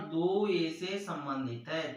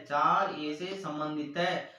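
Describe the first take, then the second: First: "दो ए से संबंधित है" spoken slowly, word by word; slow read-aloud. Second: "चार ए से संबंधित है" spoken slowly, word by word; slow read-aloud. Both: Shown as a demonstration. Teacher reads the symbol aloud to students, slowly. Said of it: "इसको पढ़ते हैं इस प्रकार".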